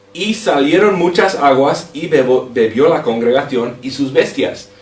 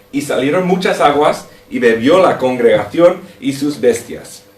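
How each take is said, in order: No difference in how they are said.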